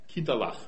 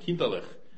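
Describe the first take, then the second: First: The word ends with the syllable 'lach'. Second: The word ends with a different final syllable. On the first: This is the northern regional form used by one parent. "min far sagde naturligt kinderlach" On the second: This is the other regional form used by the other parent. "min mor sagde kinderlach"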